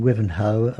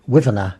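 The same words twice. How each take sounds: First: Said in the usual way. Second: "Wivener" with the final O reduced to a schwa; local Essex pronunciation. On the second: Shown as a demonstration. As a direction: say "Wivener", weak "uh" ending. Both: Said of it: "the O sound is, was never used".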